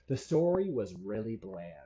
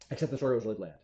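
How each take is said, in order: First: It is said slowly. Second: It is said fast.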